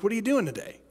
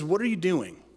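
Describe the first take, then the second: First: It is said in a friendly, neutral tone. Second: It is said in a scornful, derogatory tone.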